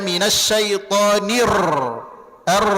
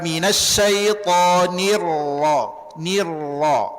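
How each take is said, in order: First: The r is trilled with excessive vibration. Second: The r is pressed lightly and flows smoothly. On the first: The speaker calls it wrong. "Jangan dibaca ... jangan" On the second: The speaker calls it right. "tekan sedikit, tapi dia tetap mengalir"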